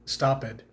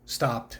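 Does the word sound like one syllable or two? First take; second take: two; one. First: The ending is an extra syllable, two syllables. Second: The ending is a bare t sound, one syllable. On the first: The speaker calls it wrong. "It's not stopped" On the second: The speaker calls it right. "is just stopped"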